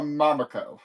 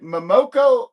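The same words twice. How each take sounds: First: Momoko as "MAH-muh-koh", front syllable stressed; first-syllable stress. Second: Momoko as "muh-MOH-koh", middle syllable raised; second-syllable stress. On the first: Host offering the other pronunciation, Momoko stressed on the first syllable. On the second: Host asking viewers which way is right, Momoko stressed on the middle. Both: Shown as a demonstration. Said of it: "I've heard it pronounced, uh, both ways".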